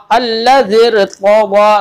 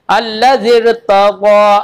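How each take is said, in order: First: Slow अल्लज़िर तग़ा with a heavy, full रा. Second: अल्लज़िर said with a thin, light रा as the mistake; wrong thin ra. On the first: Teacher to student, repeating with the full ra, slow. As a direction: stretch अल्लज़िर, rounding the रा thick and full. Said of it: "तो रा को पुर पढ़ेंगे". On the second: Teacher to student, showing the wrong thin ra. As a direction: show the wrong reading of अल्लज़िर with a fine, thin रा. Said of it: "ये नहीं पढ़ेंगे". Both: Shown as a demonstration.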